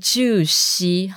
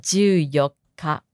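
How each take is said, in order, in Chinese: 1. 十四读成以 shi 结尾。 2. 十四读成以 yokka 结尾。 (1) "完全不是就西" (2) "是就有卡，要注意哈"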